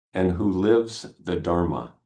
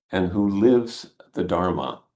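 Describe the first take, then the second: The two takes are said the same way.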